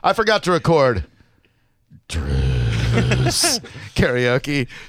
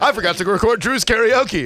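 First: It is said with contempt and venom. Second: It is said in a light, joking tone. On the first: The speaker is genuinely angry at the person named. "the contempt and venom with which he says my name" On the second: The remark is a harmless joke. "That's not like"

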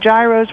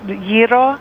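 First: It is pronounced the common outsider way. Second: It is pronounced the Greek community's way. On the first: This is how many people say it. The speaker calls it wrong. "Some people say gyros" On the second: This is how the Greek community says it. The speaker calls it right. "We pronounce it gyro"

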